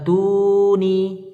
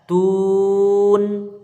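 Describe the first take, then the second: First: The word ends with an added 'i' vowel. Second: The word ends on a bare 'n' sound. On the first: The speaker calls it wrong. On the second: The speaker calls it right. "karena kita berhenti maka dia disukunkan"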